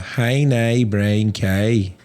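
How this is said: It is said in a Northern Irish accent.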